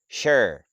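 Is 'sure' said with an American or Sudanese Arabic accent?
American. It is said with a standard American accent. The speaker calls it right. "I'm talking about the standard, American standard. If you want to learn how to say"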